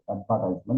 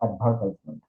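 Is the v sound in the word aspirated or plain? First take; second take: plain; aspirated. First: The v sounds plain, almost like a b. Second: The v sounds like an aspirated Bengali bh. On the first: The speaker calls it right. "ভিটাকে অনেকটা বি এর মতো উচ্চারণ হবে" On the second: The speaker calls it wrong. "Not"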